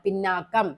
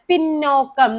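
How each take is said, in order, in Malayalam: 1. 'pinn' ന് ശേഷമുള്ള സ്വരം 'a' ആണ്. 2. 'pinn' ന് ശേഷമുള്ള സ്വരം 'o' ആണ്. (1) "എന്താണ് ശരിക്കും പറയേണ്ടത് പിന്നാക്കമാണ്" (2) "പക്ഷെ തെറ്റാണ്"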